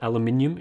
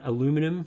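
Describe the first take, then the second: First: The word is said in the Australian form. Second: The word is said in the non-Australian form.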